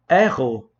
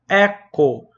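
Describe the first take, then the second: First: The middle consonant is a throaty h sound. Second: The middle consonant is a hard k sound. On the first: The speaker calls it right. "em vez de pronunciar o verbo como erro" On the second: The speaker calls it wrong. "ele pronuncia como eco"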